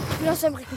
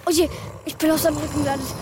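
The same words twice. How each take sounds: First: Said in the usual way. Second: Fast, startled blurt; surprised. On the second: Acted. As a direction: rattle it off in shock. Child lands on beast.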